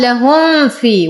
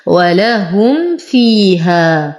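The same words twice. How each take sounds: First: "لهم في" with the meem wrongly blurred into a hum before fa; إخفاء الميم خطأً. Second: Slow "ولهم فيها", a clear m kept separate from the fa; إظهار الميم. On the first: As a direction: smudge the m of "لهم في" as a mistake. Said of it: "من الأخطاء الشائعة أن يقال". ("لهم في" بإخفاء الميم خطأً قبل الفاء) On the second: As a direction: close the m cleanly in "ولهم فيها", then a distinct f. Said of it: "أظهر الميم لوحدها وأظهر الفاء". ("ولهم فيها" ببطء مع إظهار الميم والفاء) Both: Shown as a demonstration.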